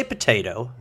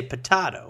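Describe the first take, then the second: First: Potato with a long AY in the middle. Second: Potato with a broad AH in the middle. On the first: Songwriter quoting the other's way, potato as puh-TAY-toe. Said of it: "You say potato". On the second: Songwriter giving their own way, potato as puh-TAH-toe. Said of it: "and I say potato". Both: Shown as a demonstration.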